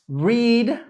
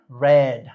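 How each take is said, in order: First: The vowel is long, rhyming with 'reed'. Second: The vowel is short, rhyming with 'red'. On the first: It is the present tense. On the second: It is the past tense.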